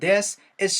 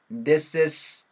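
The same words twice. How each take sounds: First: The two words are said separately, not joined. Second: The s runs into is, sounding like sis. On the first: "this is가 아니고" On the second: "sis가 붙으니까 hey sister 할 때 그 sister처럼 돼서"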